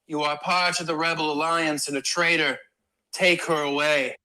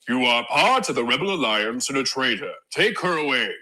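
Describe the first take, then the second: First: It is said in a normal, higher voice. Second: It is said in a deep Darth Vader voice.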